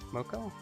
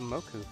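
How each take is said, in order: First: The last vowel sounds like 'oh'. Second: The last vowel sounds like 'oo'. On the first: The speaker calls it right. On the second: The speaker calls it wrong.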